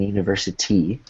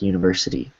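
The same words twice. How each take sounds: First: The T is a clear, hard stop. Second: The T is a soft, quick tap. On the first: The speaker calls it wrong. "instead of saying university" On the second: The speaker calls it right. "you want it to be a soft T"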